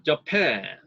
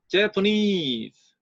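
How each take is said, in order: First: Slow Japan with weight on PAN; Japan, second syllable stressed. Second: Japanese very slow, NESE stressed, PAN weakened. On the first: Teacher in a drill contrasting Japan. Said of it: "제이 음절에 있던 강세". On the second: Teacher in a drill contrasting Japanese. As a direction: drag Japanese out, land on NESE. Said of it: "제삼 음절에 주강세". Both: Shown as a demonstration.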